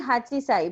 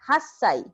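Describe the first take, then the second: First: The middle has a full 'chi' syllable. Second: The middle has a held double 's' sound. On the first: This is the form the regular pattern predicts. The speaker calls it wrong. "according to pattern, it should be hachisai" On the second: This is the actual irregular form. The speaker calls it right. "it is an exception. So eight years old is pronounced as hassai"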